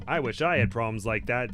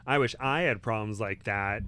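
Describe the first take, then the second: First: Lightly done, louder Brooklyn accent. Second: Said in the usual way. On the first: Shown as a demonstration. Wizard joking about the visitors' problem, light Brooklyn accent. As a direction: give it a touch of Brooklyn. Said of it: "with a Brooklyn accent".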